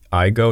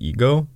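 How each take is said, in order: First: The first vowel sounds like 'eye'. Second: The first vowel sounds like 'eh'. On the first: "I assume that's how Americans pronounced it" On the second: "instead of Ego"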